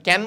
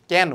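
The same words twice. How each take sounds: First: কেন with a closed "e", as in "keno"; plain e in কেন. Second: কেন with a wide "a" as in "cat"; open æ in কেন. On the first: Teacher asking students if we say it so, closed-e কেন. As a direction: say কেন with the rejected closed vowel. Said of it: "আমরা কেন বলি না". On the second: Teacher correcting for students, open-æ কেন. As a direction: say কেন as "kæno". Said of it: "এর মতো". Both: Shown as a demonstration.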